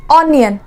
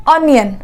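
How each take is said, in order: Both takes have the same delivery.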